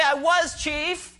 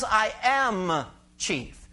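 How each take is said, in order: First: "I was chief" said high and slow as the wrong reading; slow, lifted "I was chief" as the wrong version; wrong tense. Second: "I am chief" very slow with "am" leaned on; slow, weighty "I AM chief" with a falling end; stress on AM. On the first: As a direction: show the rejected past tense, "was" drawn out. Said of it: "He didn't say". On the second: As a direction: press the present tense "am" hard. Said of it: "He's not using a past tense verb". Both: Shown as a demonstration.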